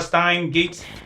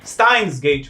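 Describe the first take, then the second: First: It is said without an s after Stein. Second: It is said with an s after Stein. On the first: The speaker calls it wrong. "I've been saying Stein Gate literally for twenty episodes" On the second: The speaker calls it right. "It's Steins Gate"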